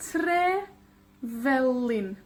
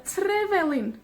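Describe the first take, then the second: First: Trevelin very slowly, TRE, pause, VELIN; TREEE, then VE-lin, drawn out; two separate words. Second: Trevelin joined up, TRE and VE both stressed; weight both parts of Trevelin without stopping; TRE-VE-lin as one word; two stresses. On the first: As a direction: stretch and split Trevelin in two. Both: Shown as a demonstration. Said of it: "Dos palabras".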